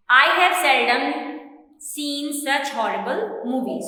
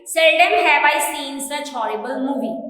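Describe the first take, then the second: First: Said in the usual way. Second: "Seldom" fronted and punched a little louder, falling tune to the end; emphatic inversion. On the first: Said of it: "in normal way". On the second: Shown as a demonstration. Teacher demonstrating the emphatic inverted sentence, stressing "Seldom". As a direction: lean on "Seldom" to show emphasis. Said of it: "to emphasize what we are saying".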